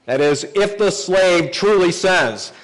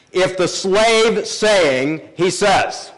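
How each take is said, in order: First: Said in the usual way. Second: Slow, weighing each word of the Hebrew; slow emphatic literal reading. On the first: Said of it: "there's a repetition here in the original language". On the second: Shown as a demonstration. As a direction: stretch it out to show the repetition. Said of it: "trying to add emphasis".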